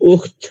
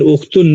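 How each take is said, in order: First: The word ends without any added ending. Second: The word ends with an added -un. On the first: The speaker calls it right. "ये सही तरीका है singular word को प्रोनाउंस करने का" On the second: The speaker calls it wrong. "उख्तुन नहीं नहीं कह सकते हैं"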